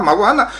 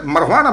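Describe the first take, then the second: First: Μαρουχάνα said as maguana with a rising tune; mock cop repeating μαρουχάνα as maguana; police mispronouncing. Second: Μαρουχάνα said as marhana with a rising tune; mock cop saying μαρουχάνα, slurred marhana; police mispronouncing. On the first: Teller mimics police, μαρουχάνα as maguana. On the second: Teller mimics police, μαρουχάνα clipped to marhana. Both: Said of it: "police saying marijuana".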